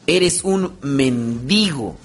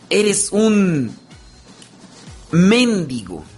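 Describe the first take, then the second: First: Mendigo is said plainly, without insulting stress. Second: Mendigo is stressed as an insult.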